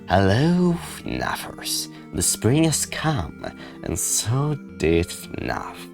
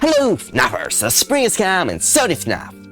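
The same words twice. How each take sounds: First: It is said in a quiet, mysterious tone. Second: It is said in a lively, energetic tone. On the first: "I sound more mysterious" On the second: "energetic as I usually do with newer videos"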